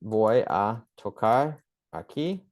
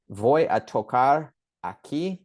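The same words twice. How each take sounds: First: Slow Spanish repeat, rising on "aquí". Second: Slow careful Spanish, rising on "Voy a tocar aquí"; slow Spanish phrase. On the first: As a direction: say "Voy a tocar aquí" slowly again, lifting at "aquí". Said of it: "I'll tell you why". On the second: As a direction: spell out "Voy a tocar aquí" slowly, stressing "voy". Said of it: "This is a really important one". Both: Shown as a demonstration.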